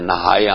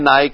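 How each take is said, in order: First: The word is said with an h sound. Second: The word is said without an h sound. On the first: It means bathing. The speaker calls it right. "ਨਹਾਉਣ ਨੂੰ ਨਹਾਏ ਆਪਾਂ ਆਖੀਦਾ, ਨਹਾਏ ਆਮ ਬੋਲੀ ਚ" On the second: The meaning of bathing is lost. The speaker calls it wrong. "ਨਾਏ ਨਾਏ ਕਹੀ ਜਾਏ ਤਾਂ ਫਿਰ ਉਹ ਗੱਲ ਬਣਦੀ ਨੀ"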